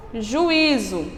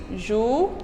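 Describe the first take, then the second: First: Said in the usual way. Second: Juízo split as ju-i-zo; syllables split. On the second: Shown as a demonstration. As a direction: break juízo into ju-i-zo. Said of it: "Separado também". (juízo separado em sílabas)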